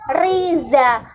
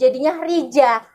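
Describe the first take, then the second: First: The middle consonant is a Z sound. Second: The middle consonant is a J sound.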